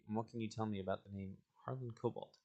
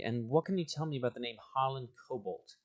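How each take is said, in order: First: It is read in the speaker's ordinary voice. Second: It is spoken in a put-on character voice.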